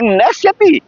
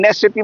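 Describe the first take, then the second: First: It is said with a questioning tone of voice. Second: It is said as a plain flat statement. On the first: They will surely come. "वो गले की ध्वनि है कि नश्यति, क्या आएंगे नहीं?" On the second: They will not come. "अर्थ तो ये एक नश्यति माने नहीं आएंगे"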